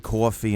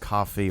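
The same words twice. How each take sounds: First: It is said with a strong New York accent. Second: It is said with a toned-down neutral accent. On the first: "Normally, I would say coffee" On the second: "instead of coffee"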